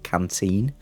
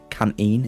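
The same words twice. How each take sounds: First: The t sound is clearly pronounced. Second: The t sound is dropped.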